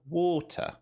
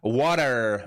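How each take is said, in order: First: The middle consonant is a clear T. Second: The middle consonant sounds like a D. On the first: "See that T in the middle?" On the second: "Water with a D"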